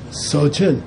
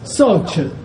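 First: The first syllable has a low tone. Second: The first syllable has a high tone. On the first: The speaker calls it right. "So, low tone" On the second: The speaker calls it wrong. "definitely not so-chun, which would mean broken teeth"

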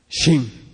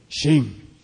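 First: The word is said with a low tone. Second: The word is said with a low tone.

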